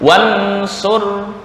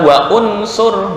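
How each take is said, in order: First: The words run together without a glottal catch. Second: A glottal catch separates wa from unsur. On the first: The speaker calls it right. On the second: The speaker calls it wrong.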